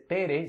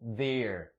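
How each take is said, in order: First: It begins with a plain T sound. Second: It begins with a soft TH sound. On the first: The speaker calls it wrong. "no se dice Tere" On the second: The speaker calls it right. "sino there"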